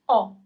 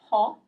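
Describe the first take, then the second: First: The word begins directly with the vowel. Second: The word begins with an audible h sound. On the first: The speaker calls it right. "So you don't pronounce the first H" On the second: The speaker calls it wrong. "It's not ho, doesn't exist"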